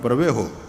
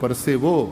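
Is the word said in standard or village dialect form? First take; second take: village; standard. First: It is said in the rural Kathiawadi form. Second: It is said in the educated standard form. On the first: A village person would say it. "આપણે ગામડામાં પરવેહો" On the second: An educated person would say it. "ભણેલા માણસનો જે પરસેવો"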